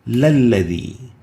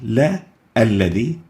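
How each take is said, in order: First: The parts merge without a glottal stop. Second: A glottal stop separates the two parts. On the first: The speaker calls it right. "directly link the first lam" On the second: The speaker calls it wrong. "We don't say"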